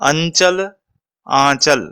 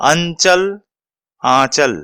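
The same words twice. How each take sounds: The two takes are said the same way.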